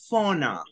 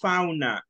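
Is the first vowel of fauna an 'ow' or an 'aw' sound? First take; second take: aw; ow. First: The first vowel is an English 'aw' sound. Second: The first vowel is the Spanish 'ow' sound. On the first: The speaker calls it right. "Es con O" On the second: The speaker calls it wrong. "no es fauna"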